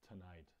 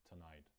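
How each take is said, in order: No difference in how they are said.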